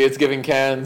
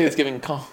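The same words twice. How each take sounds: First: "cans" said the American way; American pronunciation. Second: "con" with an open ah, French style; French pronunciation. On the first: Retold or imitated. Quoting the rapper's line to friends, "cans" with an American A. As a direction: say "cans" to rhyme with fans. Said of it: "he says Cans 'cause it's". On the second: Shown as a demonstration. Showing friends what the rapper wouldn't say, "con" said the French way. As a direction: say "con" as the French city, the S left silent. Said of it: "he wasn't gonna say".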